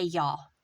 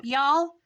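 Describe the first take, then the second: First: Said in the usual way. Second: Loud mocking "Y'all" with a rise; mock the outsider saying "Y'all"; imitating people. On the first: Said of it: "you don't say". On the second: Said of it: "when people go".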